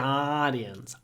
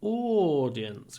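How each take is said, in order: First: It is said with an American accent. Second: It is said with a British accent. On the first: "Americans say the audience" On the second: "audience would be British English"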